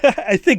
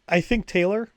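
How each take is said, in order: First: The voice falls at the end. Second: The voice rises at the end. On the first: The speaker is confident in the choice. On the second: The speaker is unsure of the choice.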